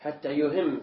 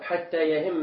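First: "يهم" said yuhimm, with u on the ya; u-vowel verb form. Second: "يهم" said yahimma, with a on the ya; open ya. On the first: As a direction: open "يهم" on a short u, yuhimm. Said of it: "أما يهم من أهم". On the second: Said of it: "بفتح الياء". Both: Shown as a demonstration.

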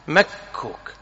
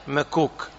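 First: مكوك with a held, doubled K; stressed geminate K in مكوك, mak-KOOK. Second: مكوك with a single short K; soft, light ma-KOOK for مكوك, K undoubled; K without doubling. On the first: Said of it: "التشديد وهو الأفصح". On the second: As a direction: say مكوك as ma-kook, no hold on the consonant. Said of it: "بضم الكاف بلا تشديد". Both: Shown as a demonstration.

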